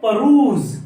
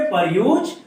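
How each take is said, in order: First: परूज said as "peruse", ending in z; correct pronunciation. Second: परयूज said as "per-use", the wrong spelling reading; wrong pronunciation. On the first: Teacher giving the correct pronunciation, stressed. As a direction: say परूज clearly with a z at the end. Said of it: "तो इसको कैसे pronounce करेंगे". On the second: Teacher showing how students misread the word. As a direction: read परयूज letter by letter, as a mistake. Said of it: "No guys". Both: Shown as a demonstration.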